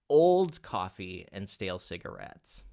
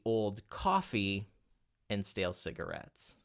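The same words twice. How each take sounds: First: The word old is stressed. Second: The word coffee is stressed. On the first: The coffee is not new. "let's say we accent the word old" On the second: It is coffee and not something else. "what if we accent then the word coffee?"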